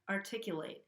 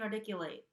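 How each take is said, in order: First: The T is a regular, crisp T sound. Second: The T is a quick flap, like a soft D. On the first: The speaker calls it right. "I'm saying it as a regular T here" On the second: The speaker calls it wrong. "I'm not saying articulate where I'm flapping the T"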